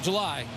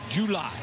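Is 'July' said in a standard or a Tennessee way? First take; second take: standard; Tennessee. First: It is said the standard way. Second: It is said the Tennessee way. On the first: "Not July" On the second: "they call it down in Tennessee"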